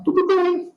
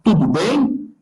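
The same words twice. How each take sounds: First: "Tudo bem" as a statement, with no questioning lift; answer intonation. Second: "Tudo bem" asked, with the end lifting on "bem"; question intonation. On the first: Instructor showing students a reply, "Tudo bem" stated as an answer. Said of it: "se eu for fazer uma resposta". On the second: Instructor showing students a question, rising "Tudo bem". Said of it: "se eu vou fazer uma pergunta". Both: Shown as a demonstration.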